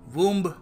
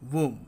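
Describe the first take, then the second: First: The final b sound is pronounced. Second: The final b sound is silent. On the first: The speaker calls it wrong. "हम कहते हैं वूम्ब" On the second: The speaker calls it right. "बी silent है और हम इसको बोलेंगे वूम"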